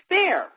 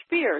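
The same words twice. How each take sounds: First: "Speer" said the German way, like "spare", pitched up; German pronunciation. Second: "Spear" said the English way, rhyming with "peer"; plain anglicised "Spear" like the weapon; English pronunciation. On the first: Explaining a German name to the host, "Speer" said the German way. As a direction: say "Speer" to rhyme with "pare", not "peer". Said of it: "spelled S P E E R in German, is pronounced". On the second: Contrasting the English reading for the host, plain anglicised "Spear". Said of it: "Or Spear". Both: Shown as a demonstration.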